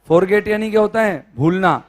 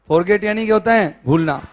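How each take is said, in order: No difference in how they are said.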